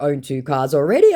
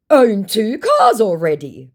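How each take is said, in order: First: Said in the usual way. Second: High, loud, drawn-out brag; mock boastful scammer. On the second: Scammer bragging about cars, mock boastful. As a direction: puff up the boast in a put-on voice.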